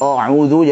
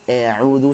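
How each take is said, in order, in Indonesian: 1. Vokal pertama malas dan tebal. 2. Vokal pertama terlalu ditipiskan ke arah e. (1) "kalau malas-malasan, a'udzu jadi tebal" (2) "pengen tipiskan tapi berlebihan jadi taklil"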